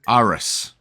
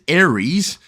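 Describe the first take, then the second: First: The name is said as Aris, like ass. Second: The name is said like the word Aries. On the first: This reads the name literally as spelled. "if you are doing it literally, it's pronounced ... like Aris" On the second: This is the usual way to say the name. "you would pronounce it as Aries"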